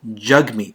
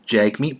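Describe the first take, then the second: First: It is said the way its owner says it. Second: It is said the way the spelling suggests. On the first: "his name is pronounced Jagmeet Singh" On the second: "it does appear to read as Jagmeet"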